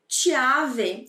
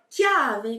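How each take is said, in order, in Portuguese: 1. A palavra começa com um som suave de ch. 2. A palavra começa com um som forte de k. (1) "Se eu não tivesse o H, ficaria assim. Eu leria chiave" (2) "o som fica duro, fica mais seco. Então a gente fala chiave"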